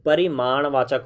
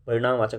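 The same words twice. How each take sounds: First: परिमाणवाचक said slowly with maaṇ in the middle, "pa-ri-maaṇ-vaachak"; corrected pronunciation. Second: परिणामवाचक with ṇaam in the middle, "pa-ri-ṇaam-vaachak"; wrong pronunciation. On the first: Shown as a demonstration. Teacher correcting students' misreading, slow careful परिमाणवाचक with maaṇ. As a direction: slowly sound out परिमाणवाचक, m first, then retroflex n. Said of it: "ठीक कर लीजिए".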